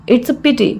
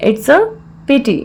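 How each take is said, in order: First: Said in the usual way. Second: Measured, with a clear mid-phrase pause; broken into parts. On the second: Shown as a demonstration. Teacher repeats the phrase for learners, in separated parts.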